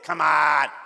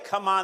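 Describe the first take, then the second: First: It is said gutturally, the Chicago way. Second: It is said plainly, without a guttural Chicago sound.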